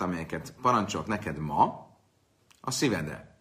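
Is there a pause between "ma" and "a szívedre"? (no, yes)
yes. There is a pause after "ma". The command is given today; take it to heart always. The speaker calls it right. "ez eredeti jelentése az lenne"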